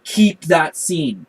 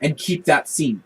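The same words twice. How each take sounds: First: "Keep" punched, slow; slow emphatic repeat. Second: Said in the usual way. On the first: Shown as a demonstration. Host insists the show should have kept the scene. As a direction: say "Keep that scene" slowly with weight.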